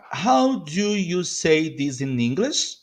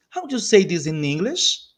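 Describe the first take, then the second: First: How do you say this in English, slow and word by word; slow model. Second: Said in the usual way. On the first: Shown as a demonstration. Teacher modelling a question for learners, slowly.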